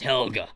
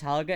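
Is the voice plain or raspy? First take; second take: raspy; plain. First: The name is said in a rough, raspy voice. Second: The name is said in a plain, ordinary voice. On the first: The speaker calls it right. "as if you've been smoking for thirty years" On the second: The speaker calls it wrong. "it's not pronounced Helga"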